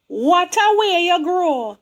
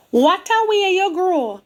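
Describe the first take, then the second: First: Slow, lilting Jamaican greeting; Jamaican church folk. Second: Higher, lilting Jamaican repeat; Jamaican church folk. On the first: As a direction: imitate the church ladies' Jamaican patois. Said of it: "That is the way they talk". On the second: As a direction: echo the church ladies' Jamaican lilt. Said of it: "They don't speak properly the way we do". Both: Retold or imitated.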